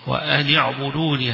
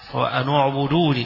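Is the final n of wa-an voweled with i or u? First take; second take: i; u. First: The n before the verb carries an i vowel. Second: The n before the verb carries a u vowel. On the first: "بالكسر النون" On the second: "يقرؤونها بالضم"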